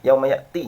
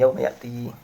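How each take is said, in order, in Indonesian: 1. Vokalnya pendek. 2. Vokalnya dipanjangkan. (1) "itu kan pendek itu ya" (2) "Maka dibaca dengan panjang"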